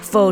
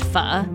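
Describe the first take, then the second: First: The word rhymes with 'yo', like 'foe'. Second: The word has a short vowel, like 'fuh'. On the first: The speaker calls it wrong. "it don't rhyme with yo" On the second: The speaker calls it right. "It's actually pronounced Pho"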